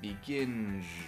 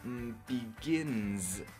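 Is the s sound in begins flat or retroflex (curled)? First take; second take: retroflex; flat. First: The s sound is made with a curled tongue. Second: The s sound is made with a flat tongue. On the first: The speaker calls it wrong. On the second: The speaker calls it right.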